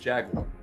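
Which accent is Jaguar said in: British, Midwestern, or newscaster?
newscaster. It is said in a standard newscaster accent. "in the classic newscaster English, it's Jaguar"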